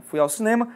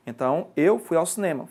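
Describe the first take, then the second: First: Said in the usual way. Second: "eu" leaned on as the written-out subject; stress on eu. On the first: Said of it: "não houve necessidade de escrever". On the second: Shown as a demonstration. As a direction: hit the word "eu" to show the hidden subject. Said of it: "Se eu fosse escrevê-lo, seria eu".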